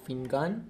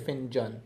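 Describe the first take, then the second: First: The middle consonant is a hard g sound. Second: The middle consonant is a j sound. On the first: This is one dialect's way of saying it. "You say fingan" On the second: This is another dialect's way of saying it. "you say finjan"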